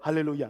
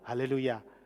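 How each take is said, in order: First: The word is said quickly. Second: The word is said at a normal speed.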